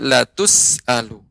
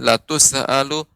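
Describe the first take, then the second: First: The s sound is held without any echoing bounce. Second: The s sound ends with an added echoing bounce. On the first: The speaker calls it right. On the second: The speaker calls it wrong. "tidak boleh dipantulkan. Seperti huruf sin"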